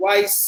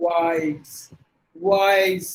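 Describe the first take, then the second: First: Wise ending in s, like "wice"; short, hissed s closing Wise; S-sound mispronunciation. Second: Wise ending in a buzzed z; Z sound. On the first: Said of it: "If you say it with a". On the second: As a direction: lengthen Wise into a voiced z. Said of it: "You have to give it a Z sound". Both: Shown as a demonstration.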